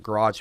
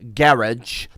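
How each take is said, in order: First: It is said in an American accent. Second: It is said in a British accent.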